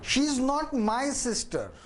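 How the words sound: The stress falls on the word my. She is someone else's sister, not mine.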